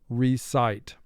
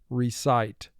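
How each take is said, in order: Both takes have the same delivery.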